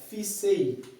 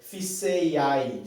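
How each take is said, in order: First: The ending merges into a single stressed vowel. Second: The ending is split into two separate vowel sounds. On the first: The speaker calls it right. "você fala fissei, porque esse a e e juntos representam um i tônico" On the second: The speaker calls it wrong. "você não fala"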